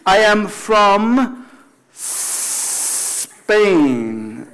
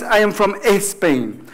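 First: Very slow, "Spain" opening on a long hiss; long pure S. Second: "Spain" said as "Espain"; E before S. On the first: Teacher modelling I am from Spain, long snake-like S. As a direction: hold the S of "Spain", no E before it. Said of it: "es un S como un serpiente". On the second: Teacher showing the wrong way, Spanish-style Espain. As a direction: run an E into the S of "Spain". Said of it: "No es I am from Spain". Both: Shown as a demonstration.

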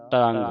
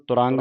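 First: ਤਰੰਗ with no u, "tarang"; short neutral vowel after the t; correct reading. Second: ਤੁਰੰਗ with a short u, "turang"; wrong reading. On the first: Teacher models the word for students, "tarang" without u. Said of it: "ਤੱਤੇ ਦੇ ਔਂਕੜ ਨਹੀਂ". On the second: Teacher shows the misreading to avoid, "turang" with u. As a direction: put a u after the t. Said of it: "ਨਹੀਂ ਪੜ੍ਹਨਾ". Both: Shown as a demonstration.

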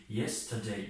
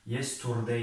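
First: Yesterday said in full as yes-ter-day, with a clear -day ending; yesterday, every syllable sounded; English pronunciation. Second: Yesterday said as yester-d, the final -day clipped off; yesterday, last syllable swallowed; alternative pronunciation. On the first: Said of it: "شکل انگلیسی". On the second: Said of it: "در بعضی تلفظهایی که ... افرو امریکانس ها هست یا که دیگر تلفظهای هندی". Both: Shown as a demonstration.

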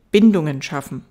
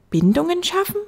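First: "Bindungen schaffen" stated firmly, falling at the end; falling statement. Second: Put-on "Bindungen schaffen" high, rising like a child's question; puzzled echo question. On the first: Acted. Fox explaining to the prince, "Bindungen schaffen" as a firm statement. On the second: Little prince puzzled by the fox, "Bindungen schaffen" as a high rising question.

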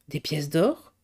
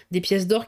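First: "Des pièces d'or" low, rising sharply at the end; surprised question. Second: Said in the usual way. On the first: A narrator's reading. Reporter questions what he heard.

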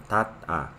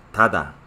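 First: Said in the usual way. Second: "tada" said as one word, the t between vowels voiced to d; Korean pronunciation. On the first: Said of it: "Raíz más a, tat, a". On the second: Shown as a demonstration. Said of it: "regla de pronunciación se pronuncia de esa manera".

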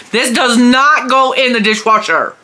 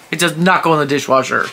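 First: Mock scolding. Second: Said in the usual way. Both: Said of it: "I yelled at him later".

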